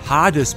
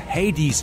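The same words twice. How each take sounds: First: The name is pronounced with German sounds. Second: The name is pronounced with English sounds.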